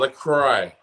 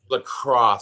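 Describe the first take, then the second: First: The name ends with an 'oy' sound. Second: The name ends with an 'oss' sound. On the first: The speaker calls it wrong. "It's not LaCroix" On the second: The speaker calls it right. "It's lacrosse"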